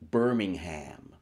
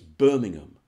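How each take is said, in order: First: The word's ending is pronounced fully. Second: The word's ending is dropped and reduced. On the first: The speaker calls it wrong. "don't say Birmingham" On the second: The speaker calls it right. "It's Birmingham. You know, just drop it"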